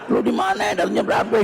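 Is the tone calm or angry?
angry. It is said in an angry tone.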